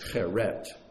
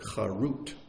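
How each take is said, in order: First: The vowels sound like e then e. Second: The vowels sound like a then u. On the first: It means engraved. "don't read it as cheret" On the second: It means freedom. "pronounce it charut. Same word, just pronounce it differently"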